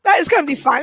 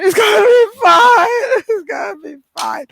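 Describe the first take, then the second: First: Said in the usual way. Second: Loud, high tearful outburst that then subsides; mock breakdown. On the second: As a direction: pretend to crack while reassuring yourself. Acts breakdown while reassuring herself.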